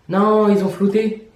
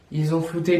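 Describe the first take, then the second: First: Drawn-out, higher cry of disappointment; dismayed exclamation. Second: Said in the usual way. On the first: Real, not acted. Vlogger finding the street image blurred, dismayed exclamation. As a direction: stretch out the no in dismay.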